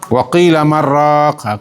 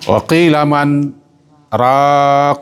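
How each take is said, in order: First: The words run together without a stop. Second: There is a brief stop after 'man'. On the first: It asks who will make or share broth. The speaker calls it wrong. "Yang sambung kan?" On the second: It asks who will cure him. The speaker calls it right. "Tidak boleh disambung. ... Itu muka saktah"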